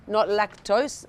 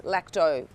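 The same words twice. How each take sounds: First: Lactose said with the full -tose ending, slowly; teacher sounding out lactose as the word to avoid, spelling each part; wrong word lactose. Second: Lacto said short, ending on -to with no -se; teacher gives lacto as the right term, clipped after the -to; correct word lacto. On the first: Teacher warns students off lactose, slow and deliberate. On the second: Teacher corrects students to lacto, falling and final. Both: Shown as a demonstration.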